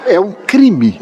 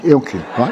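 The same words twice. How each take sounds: First: "crime" punched high, mock indignant; mock outrage. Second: "é um crime" said again through a laugh; laughing aside. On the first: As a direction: declare "É um crime" like a verdict. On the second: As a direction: chuckle the repeat as you ask. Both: Real, not acted.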